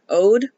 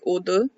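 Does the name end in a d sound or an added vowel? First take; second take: d sound; added vowel. First: The name ends on a plain d sound. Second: The name ends with an extra vowel after d. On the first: "it's just the English word ode" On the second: "In Korean, it's more pronounced like odu"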